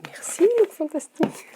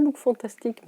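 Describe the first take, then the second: First: High, chirpy thank-you to Look Fantastic; mock-gushing merci; bright playful thanks. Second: Said in the usual way. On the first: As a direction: sing out the thanks like a cheerful shout-out. Playful cheery thanks to the brand.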